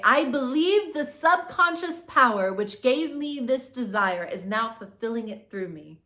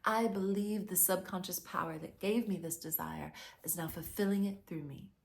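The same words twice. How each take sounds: First: Slow, louder declaration; a firm affirmation said for the listener to repeat. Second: Said in the usual way. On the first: Shown as a demonstration. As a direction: proclaim it slowly and firmly. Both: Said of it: "And also say".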